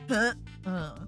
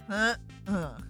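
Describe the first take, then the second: Both takes have the same delivery.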